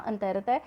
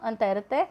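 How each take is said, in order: Both takes have the same delivery.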